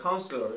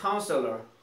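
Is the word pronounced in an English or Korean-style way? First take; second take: Korean; English. First: It is pronounced the Korean-style Konglish way. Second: It is pronounced the English way. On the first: "보통 우리가 콩글리시로 얘기할 때 그래 Counselor 이렇게 얘기합니다" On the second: "자 따라합니다"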